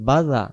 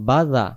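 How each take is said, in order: No difference in how they are said.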